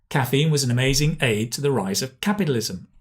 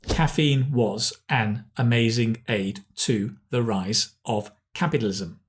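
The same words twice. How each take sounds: First: Key words are stressed and small words reduced. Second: Every word gets equal stress. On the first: The speaker calls it right. "What we say is" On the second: The speaker calls it wrong. "We don't say"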